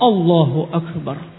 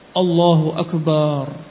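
First: No vowel is lengthened; it is said straight. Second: The vowel of the ba syllable is lengthened. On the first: The speaker calls it right. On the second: The speaker calls it wrong. "ba-nya panjang"

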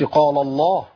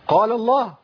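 First: The lam of the first word is heavy. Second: The lam of the first word is light. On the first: The speaker calls it wrong. "ما قلتش" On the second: The speaker calls it right. "انا عندي القاف مفخمة واللام مرققة في النص"

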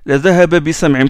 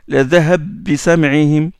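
First: The two meeting consonants are kept separate. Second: The two meeting consonants are merged into one. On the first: This is how most reciters read it. "tous les qurra récitent comme ça" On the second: This is one reciter's particular reading. "il fait l'élision"

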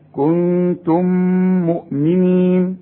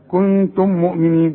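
First: The two m sounds merge with a held nasal. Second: The two m sounds stay separate, without nasal hold. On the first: The speaker calls it right. "لا،" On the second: The speaker calls it wrong. "بدون إدغام وبدون غنة"

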